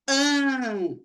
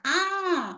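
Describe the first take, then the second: First: A nasal vowel with the mouth less open. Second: An open vowel with the mouth wide open. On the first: "Aí eu já não abro tanto a boca" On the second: "a gente abre bem a boca para falar mesmo"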